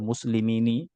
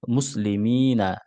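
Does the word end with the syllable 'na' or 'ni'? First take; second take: ni; na. First: The last syllable ends in an 'i' vowel. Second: The last syllable ends in an 'a' vowel. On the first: This reading exists but is very rare. "orang yang membaca kasrah" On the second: This is the usual reading. "bacanya adalah di fathah"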